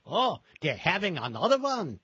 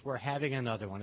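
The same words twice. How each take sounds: First: Put-on Yiddish-accented old friend, sing-song and raised; playful Yiddish accent. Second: Said in the usual way. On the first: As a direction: do your best Yiddish accent, higher and louder. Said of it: "in his best Yiddish accent". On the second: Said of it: "So yes".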